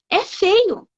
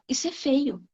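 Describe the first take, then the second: First: FEIO dito agudo e firme; afirmação enfática. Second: Dito mais baixo, sem alarde; fala contida. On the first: Shown as a demonstration. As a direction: repete com convicção, subindo o tom em "feio". Repete afirmando sem medo. (ênfase aguda em "feio", sem medo) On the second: Retold or imitated. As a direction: comenta discretamente, em volume baixo. Fala contida, antes de repetir afirmando. (em tom baixo e contido)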